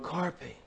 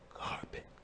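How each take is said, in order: First: It is said in a louder voice. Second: It is said in a low, quiet voice.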